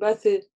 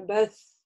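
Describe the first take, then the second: First: The s is cut short with a vowel after. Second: The s is held slightly long, with no vowel. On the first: The speaker calls it wrong. "не говорим «бэсы»" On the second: The speaker calls it right. "мы читаем ее на сукуне"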